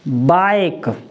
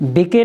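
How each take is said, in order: First: The vowel is the diphthong 'ai' sound. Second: The vowel is a short 'i' sound. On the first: The speaker calls it right. "इसको क्या पढ़ेंगे? बाइक।" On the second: The speaker calls it wrong. "बिके नहीं पढ़ेंगे"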